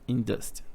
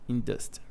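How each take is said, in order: No difference in how they are said.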